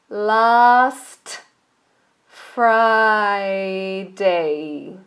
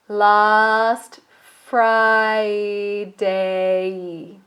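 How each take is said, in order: No difference in how they are said.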